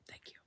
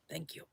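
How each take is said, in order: First: A breathless whispered thank you. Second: A quiet, fading thank you; soft thanks. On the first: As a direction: whisper the thanks right at the mic. Thanking the viewers, fading out. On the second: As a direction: let the thanks drop away softly. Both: Real, not acted.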